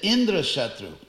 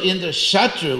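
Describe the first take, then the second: First: The stress falls on the first syllable, in. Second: The stress falls on the syllable sha. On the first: A being whom Indra would kill. "just by shifting the accent to the first syllable" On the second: A being who would kill Indra. "with the accent on Sha"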